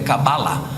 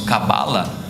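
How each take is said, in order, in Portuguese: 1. A tônica está na última sílaba. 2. A tônica está na sílaba do meio. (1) "o correto é Cabalá" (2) "Nós falamos Cabala"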